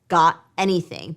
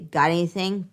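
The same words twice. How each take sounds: First: Each word is said separately and distinctly. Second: The words run together smoothly without a break. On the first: "Than just got anything" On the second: "With linking, we say"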